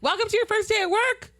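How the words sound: It is yelled flatly and sounds angry.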